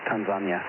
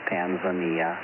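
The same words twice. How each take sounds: First: It is said the way Tanzanians pronounce it. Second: It is said the way Americans pronounce it. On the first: This is how people in the country say it. "that's the way they pronounce it in Tanzania" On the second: This is the accepted form in the US. "in the U S the proper pronunciation is Tanzania"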